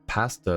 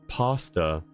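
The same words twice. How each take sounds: First: The first vowel is made more centrally. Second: The first vowel is made far back. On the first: "more middle of the mouth" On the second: "the American English that in the back of the mouth"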